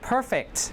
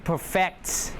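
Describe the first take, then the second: First: The stress is on the first syllable. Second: The stress is on the second syllable. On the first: It is an adjective. "If it's an adjective, uh, first syllable" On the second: It is a verb. "Stress on the second one"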